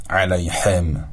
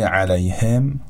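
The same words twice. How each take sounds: First: Slowed علیهم with a throaty ḥ in place of h; علیهم with a pharyngeal ḥ; wrong throaty ḥ. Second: علیهم with a light Persian h; علیهم with an ordinary h; soft h. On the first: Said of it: "نگیم". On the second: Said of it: "به شکل حرف هی جیمی تلفظ نکنیم". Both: Shown as a demonstration.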